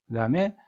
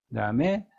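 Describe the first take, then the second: No difference in how they are said.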